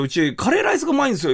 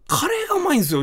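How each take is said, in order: First: Fast owner boast. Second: Cafe owner boast. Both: Retold or imitated. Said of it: "って言われて".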